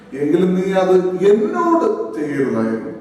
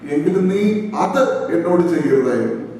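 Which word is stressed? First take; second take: എന്നോട്; അത്. First: The stress is on the word എന്നോട്. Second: The stress is on the word അത്.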